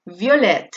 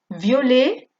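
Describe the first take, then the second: First: "violet" said vjolet, final t sounded; feminine pronunciation. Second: "violet" said vjole, final t silent; masculine pronunciation. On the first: Teacher contrasting feminine "violet" for students. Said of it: "pero lo de delante sí". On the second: Teacher contrasting masculine "violet" for students. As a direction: drop the t in "violet". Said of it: "la E no se pronuncia, pero lo de delante sí". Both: Shown as a demonstration.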